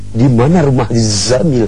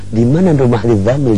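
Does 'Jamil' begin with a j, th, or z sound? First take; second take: z; th. First: Jamil begins with a z sound. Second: Jamil begins with a th sound. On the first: "dia rubah pakai huruf Zai" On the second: "Dia pakai huruf yang kayak da tempat ada titiknya"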